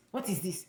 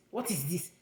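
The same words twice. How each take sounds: The two takes are said the same way.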